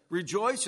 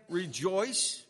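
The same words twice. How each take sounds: First: "Rejoice" said firmly, stressed on the second syllable; short, emphatic "Rejoice"; emphatic repeat. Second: "rejoice" stretched out firmly; drawn-out, emphatic "rejoice"; further emphasis. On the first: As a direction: press "Rejoice" as a repeated command. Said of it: "Let me say it again for emphasis". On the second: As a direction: hold "rejoice" longer to drive it home. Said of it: "let me emphasize it again". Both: Retold or imitated.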